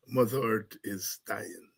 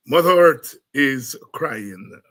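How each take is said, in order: First: Said in the usual way. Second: Sung, sung song line. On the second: Shown as a demonstration. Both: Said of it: "doing a song".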